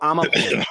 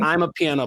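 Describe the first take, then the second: First: It starts with 'ah-ma', said as one word. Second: It starts like the English words 'I'm a'. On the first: The speaker calls it right. "It's I'm a I'm a piano" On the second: The speaker calls it wrong. "Not I'm a piano"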